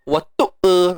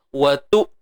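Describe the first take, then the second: First: An extra vowel trails after the glottal stop. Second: The final glottal stop is held and cut off. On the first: The speaker calls it wrong. "lebih-lebihkan bunyi watu e" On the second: The speaker calls it right. "hamzah ni bersifat syiddah, iaitu suara yang tertahan"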